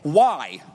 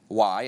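First: It sounds disrespectful and challenging. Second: It sounds polite and respectful.

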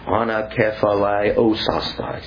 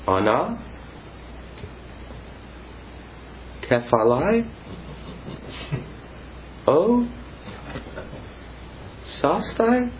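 First: The pitch falls at the end, like a statement. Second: The pitch rises at the end, like a question. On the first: It sounds like a statement. The speaker calls it right. "but do it in the indicative" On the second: It sounds like a question. The speaker calls it wrong. "Here's how students do it. ... please don't do it in the interrogative"

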